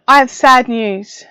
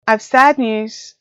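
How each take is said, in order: First: Slow, mock-tragic announcement; mock sad. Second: Said in the usual way. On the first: Vlogger announcing her coffee machine died, mock sad. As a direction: pretend grief, drawn out.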